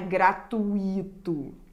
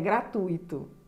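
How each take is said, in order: First: The u and i fall in separate syllables. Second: The u and i join in one syllable. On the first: The speaker calls it wrong. "A pronúncia correta não é gratuito" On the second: The speaker calls it right. "esse I não forma um hiato, ele forma um ditongo com a vogal anterior"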